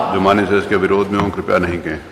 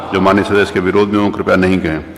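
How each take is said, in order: The two takes are said the same way.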